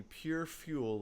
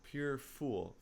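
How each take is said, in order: First: "fuel" slipped in with a y-glide after the f; "fuel" read as FYOO-ul; misread word. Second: "fool" with a plain oo, no y-glide; "fool" said as FOOL, one syllable; corrected word. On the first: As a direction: say "fuel" with a "few" sound, slowly. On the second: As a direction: correct yourself to "fool", rhyming with pool. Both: Real, not acted. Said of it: "fool and fuel are completely different words".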